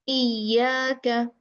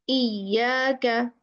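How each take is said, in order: The two takes are said the same way.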